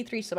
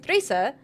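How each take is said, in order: First: Said in the usual way. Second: British accent. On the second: Shown as a demonstration. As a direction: say THREESER lightly British, no R at the end. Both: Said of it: "I said threeser in a British accent".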